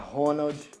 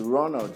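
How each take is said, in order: First: The name is said with a Brazilian pronunciation. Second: The name is said with an English pronunciation. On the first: The name is adapted for Brazilian audiences. "que os nomes fiquem mais abrasileirados" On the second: The name is kept as in the original. "em vez de Ronald"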